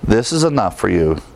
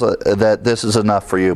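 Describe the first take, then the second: First: "is" leaned on instead of "this"; stress on is. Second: "this" leaned on, the rest said lightly; stress on this. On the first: Pastor repeats the verse for the congregation, "is" stressed. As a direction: shift the weight to the word "is". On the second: Pastor shows the congregation where the stress falls, "this" stressed. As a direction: push the word "this". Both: Shown as a demonstration. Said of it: "And so the stress falls".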